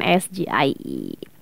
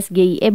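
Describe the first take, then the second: First: The letters are spelled with English letter names. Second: The letters are spelled with Indonesian letter names. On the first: This is the reading critics expected. "bukan S G I E" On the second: This reading was criticized. "dipermasalahkan ketika disebutnya S G I E"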